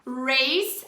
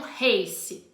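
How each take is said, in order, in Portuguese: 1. Começa com o R enrolado do inglês. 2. Começa com um som soprado, parecido com H. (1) "a gente fala desse jeito" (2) "e não race"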